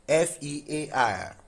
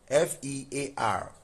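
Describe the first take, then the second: The two takes are said the same way.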